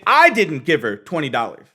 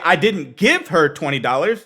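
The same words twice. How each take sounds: First: The stress is on the word I. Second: The stress is on the word give.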